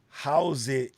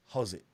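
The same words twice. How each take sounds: First: The word 'how' is fully pronounced. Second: The word 'how' is reduced in a local accent. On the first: The speaker calls it wrong. "we don't say how's it ... when you fully say the how" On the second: The speaker calls it right. "is how's it. It's different"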